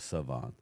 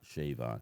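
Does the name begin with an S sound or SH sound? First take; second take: S sound; SH sound. First: The name begins with a plain S sound. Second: The name begins with an SH sound. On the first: The speaker calls it right. "he wants to be called Savon" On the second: The speaker calls it wrong. "not Shavon"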